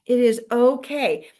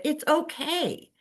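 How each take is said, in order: First: "It is okay" said louder, "it" and "is" both pressed; emphatic repeat. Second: Said in the usual way. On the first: Shown as a demonstration. Coach repeating reassurance to agents, louder and firmer. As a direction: repeat "It is okay" with added weight on "it is".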